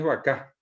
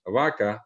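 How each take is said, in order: First: "vaca" as va-CÁ; Guaraní final stress. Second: "vaca" as VA-ca, falling; first-syllable stress. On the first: Teacher giving the Guaraní form, final stress. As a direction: push the last A of "vaca". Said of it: "En guaraní es vaca". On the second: Teacher giving the Spanish word, stressed first syllable. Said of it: "el acento está en la A". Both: Shown as a demonstration.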